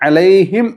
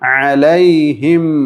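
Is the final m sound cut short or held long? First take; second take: cut short; held long. First: The final m is cut short and barely heard. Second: The final m is held long and clearly audible. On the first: The speaker calls it wrong. "അലൈഹിം എന്നല്ല" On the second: The speaker calls it right. "മീം പുറമേ കേൾക്കുന്ന രൂപത്തിൽ വേണം വഖഫ് ചെയ്യാൻ"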